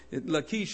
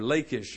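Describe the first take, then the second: First: The name is said the other, non-anglicized way. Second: The name is said the anglicized English way. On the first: The speaker calls it right. "Lachish is a better pronunciation of the city's name" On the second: The speaker calls it wrong. "as some English people pronounce it"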